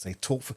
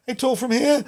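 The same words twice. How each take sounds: First: Said in the usual way. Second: Much higher, tight and pushed from the chest; tense nervous high voice. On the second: Shown as a demonstration. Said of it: "they're really, really nervous".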